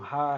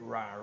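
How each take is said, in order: First: It starts with a soft, breathy h-like sound. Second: It starts with a deep, croaky English r sound. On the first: "ele vai ter o som do R R" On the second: "R mesmo original do inglês"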